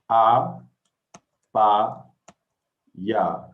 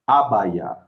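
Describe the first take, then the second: First: It is said slowly, one syllable at a time. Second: It is said quickly as one joined word. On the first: "One more time slowly" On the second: "Now we'll say it faster"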